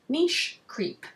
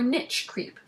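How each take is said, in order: First: Niche is said in a non-American way. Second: Niche is said in an American way.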